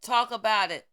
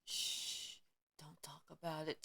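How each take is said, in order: First: A sudden loud burst; loud command to speak out; loud urging. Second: Softly hushed, almost whispered; a mock hush, breathy and low; hushed shush. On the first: Real, not acted. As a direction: snap back loudly after the hush. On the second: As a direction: shush them like a secret. Mocking those who keep silent.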